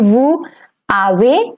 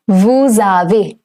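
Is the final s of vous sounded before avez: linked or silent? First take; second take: silent; linked. First: The s of vous stays silent before avez. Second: The s of vous links into avez as z. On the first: The speaker calls it wrong. "It's not going to be vous avez" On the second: The speaker calls it right. "it's going to be vous avez"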